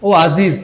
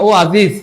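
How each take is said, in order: No difference in how they are said.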